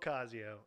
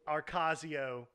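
First: No R sound follows the first vowel. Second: An R sound follows the first vowel. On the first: The speaker calls it right. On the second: The speaker calls it wrong. "There's no R"

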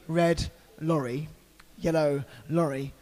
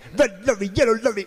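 First: It is said slowly and carefully. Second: It is said fast, like a rapper.

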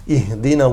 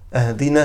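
First: The first vowel is an 'i' sound. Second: The first vowel is an 'a' sound. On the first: Guide us. The speaker calls it right. "اهدنا with a kasra" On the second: Give us a gift. The speaker calls it wrong. "he puts a fatha on the alif hamza"

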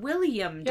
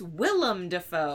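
First: The first name is pronounced like William. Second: The first name is pronounced like Willem. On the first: The speaker calls it wrong. "It's not William Dafoe" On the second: The speaker calls it right. "It's Willem Dafoe"

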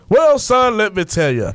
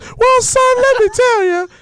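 First: The voice is put on deep and low. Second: The voice is put on high and thin. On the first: The speaker calls it right. "How come all the dads have deep voices?" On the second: The speaker calls it wrong. "You don't want to say that"

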